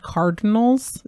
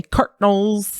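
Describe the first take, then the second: First: Said in the usual way. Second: "Cardinals" squashed to CART-nuls; "Cardinals" with a hard T and no middle vowel; child's mispronunciation. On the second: Retold or imitated. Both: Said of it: "the way she said Cardinals".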